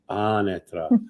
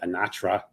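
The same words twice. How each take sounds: First: The name is said with an Italian pronunciation. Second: The name is said with an American pronunciation. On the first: The speaker calls it right. "the way you would say it in Italiano from Sicily" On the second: The speaker calls it wrong. "That's so American"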